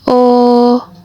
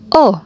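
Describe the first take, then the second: First: The vowel carries the first tone. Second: The vowel carries the fourth tone. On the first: "Mulai dari nada yang pertama" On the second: "nada yang keempat"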